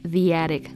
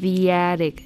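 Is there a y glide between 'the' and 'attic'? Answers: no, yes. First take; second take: yes; yes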